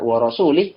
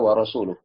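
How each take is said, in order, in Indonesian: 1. Kata terakhir berakhir dengan vokal i. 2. Kata terakhir berakhir dengan vokal u. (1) "kalau dibaca wa rasulih" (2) "harusnya wa rasuluh"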